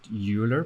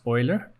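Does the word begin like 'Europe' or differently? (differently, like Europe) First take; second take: like Europe; differently. First: The first syllable sounds like the start of Europe. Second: The first syllable does not sound like Europe. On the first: The speaker calls it wrong. "I pronounced it Euler because I thought E U, like Europe" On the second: The speaker calls it right. "apparently it's pronounced Euler"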